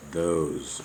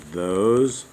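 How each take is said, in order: First: Said in the usual way. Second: "Those" said higher and louder; stressed those. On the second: Shown as a demonstration. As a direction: punch "Those" as a check. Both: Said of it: "Just lowercase those".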